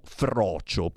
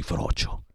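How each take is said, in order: First: Said in the usual way. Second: Frocio breathed out without voice; whispered frocio, as if naming something not said anymore; hushed slur. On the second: Retold or imitated. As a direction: drop to a sly whisper on frocio. Asks who still says the slur.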